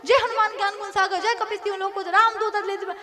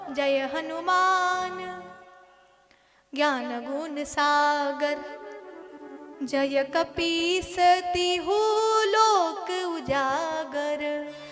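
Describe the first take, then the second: First: It is recited fast and hurriedly. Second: It is recited slowly and calmly.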